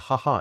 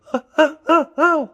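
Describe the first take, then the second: First: Short normal laugh on the exhale; plain ha ha breathed out. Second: High, loud laugh sucked in on the inhale; gasping inward ha ha ha ha, slow; weird innie laugh. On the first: Demonstrating a normal laugh before the weird one, easy exhaled chuckle. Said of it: "laughing on an out breath". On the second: Showing the host his strange laugh, loud high inhaled cackle. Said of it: "it's a weird innie laugh". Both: Shown as a demonstration.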